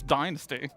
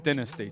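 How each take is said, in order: First: It is said with an American pronunciation. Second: It is said with a British pronunciation. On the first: "brainwashed by Americans to say" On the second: "I would also say dynasty, technically"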